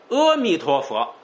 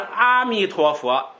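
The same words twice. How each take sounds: First: The first vowel is said short. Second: The first vowel is said long. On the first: The light is without measure. The speaker calls it right. "短阿要读阿，这就是无量光" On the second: The light has a measure. The speaker calls it wrong. "就是有量光，意思就错了"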